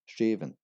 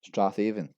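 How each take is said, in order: First: The name is said in a shorter form. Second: The name is said in a longer form. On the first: The speaker calls it right. "This is actually pronounced as Straven" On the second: The speaker calls it wrong. "we have Strathaven"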